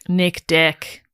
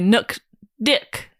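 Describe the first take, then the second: First: It is said in a plain accent. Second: It is said in a Kiwi accent.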